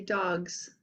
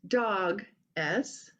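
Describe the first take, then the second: First: The final s is blended into the word. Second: The final s is said apart from the word. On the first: The speaker calls it right. "they say dogs" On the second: The speaker calls it wrong. "they don't say um"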